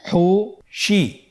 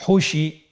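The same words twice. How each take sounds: First: "হুশি" very slowly in two separate syllables; syllables apart. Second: "হুশি" run together as one word; syllables joined. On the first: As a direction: split "হুশি" with a clear pause between syllables. ("হুশি" ভেঙে ভেঙে ধীরে) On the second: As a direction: blend both syllables of "হুশি" without a break. ("হুশি" একসাথে মিলিয়ে) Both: Shown as a demonstration. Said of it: "এভাবেও পড়তে পারেন".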